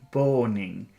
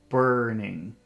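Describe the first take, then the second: First: The R is replaced by a W-like sound. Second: The R is a clear R sound. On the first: The speaker calls it wrong. "a little child would say boning ... make the W sound" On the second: The speaker calls it right. "your tongue should be like this. Not touching anything"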